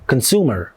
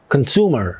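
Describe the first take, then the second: No difference in how they are said.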